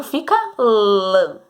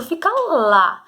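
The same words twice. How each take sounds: First: "lã" slow with a nasal a. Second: "lá" with a clear open oral a. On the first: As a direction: say "lã" through the nose, slowly. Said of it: "se eu colocar o acento tio". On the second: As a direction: say "lá" open, not nasal. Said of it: "se eu colocar o acento agudo". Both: Shown as a demonstration.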